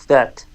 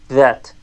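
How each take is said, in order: Both takes have the same delivery.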